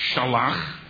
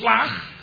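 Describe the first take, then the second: First: A full vowel separates the sh and l. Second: The sh runs straight into the l. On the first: The request is more demanding and definitive. "There are two ways to say send" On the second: The request is lighter. "shlach is lighter"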